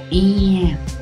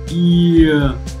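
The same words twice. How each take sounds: First: The vowel starts directly with spread lips. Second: The vowel slides in from a glide at the start. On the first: The speaker calls it right. "Stretch the lip first and then pronounce yeah" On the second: The speaker calls it wrong. "Some people do it simultaneously, like yeah"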